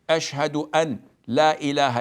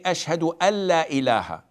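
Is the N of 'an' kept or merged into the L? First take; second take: kept; merged. First: The N is pronounced separately before the L. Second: The N blends into the following L sound. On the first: The speaker calls it wrong. "we don't say" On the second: The speaker calls it right. "we combine the N with the L"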